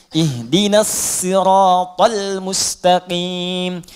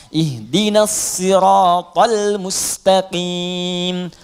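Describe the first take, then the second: Both takes have the same delivery.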